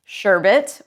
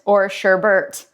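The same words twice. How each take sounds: First: Sherbet said "sher-bit", no second R; sherbet, one R. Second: Sherbert said slowly "sher-bert" with the extra R; sherbert, two Rs. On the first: Asking viewers, says sherbet with one R. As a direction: say sherbet with a single R. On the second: Asking viewers, says sherbert slowly with two Rs. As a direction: drag out sherbert with a second R. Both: Shown as a demonstration. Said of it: "Do you pronounce the word sherbet".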